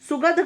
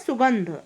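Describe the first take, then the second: First: The word is said without a nasal sound. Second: The word is said with a nasal sound. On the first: The speaker calls it wrong. "सुगध गलत होता है" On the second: The speaker calls it right. "क्या होता है? सुगंध"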